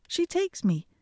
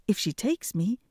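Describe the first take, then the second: First: Takes jumps much higher on the repeat; emphatic repeat. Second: Said in the usual way. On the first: A narrator's reading. Hans pleads with father, high emphatic repeat. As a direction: toss the repeat up high and cheeky.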